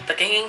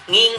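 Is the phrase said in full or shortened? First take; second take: full; shortened. First: The phrase is said in full. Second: The phrase is shortened to one syllable.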